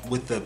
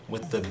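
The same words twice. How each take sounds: Both takes have the same delivery.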